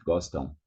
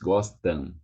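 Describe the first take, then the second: First: The ending sounds like 'tão' with an o. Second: The ending sounds like a plain 'tan'. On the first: "We say like we had an O after that" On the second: "the right way to spell gostam is gostam. Tan. But we don't say that"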